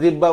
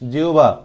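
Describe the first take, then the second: First: The middle is a doubled b sound. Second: The middle is an h followed by w. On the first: The speaker calls it wrong. "অনেকে এটা উচ্চারণ জিব্বা বলে, জিব্বা না" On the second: The speaker calls it right. "এটা উচ্চারণ কি হবে? জিউবা।"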